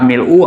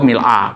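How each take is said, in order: First: The word ends with an u vowel. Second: The word ends with an a vowel. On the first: "bisa mil'u atau mil'a" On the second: "bisa mil'u atau mil'a"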